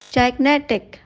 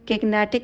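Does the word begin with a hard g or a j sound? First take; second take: j sound; hard g. First: The word begins with a j sound. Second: The word begins with a hard g sound. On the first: The speaker calls it right. "नहीं जाइग्नेटिक" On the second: The speaker calls it wrong. "गिग्नेटिक नहीं"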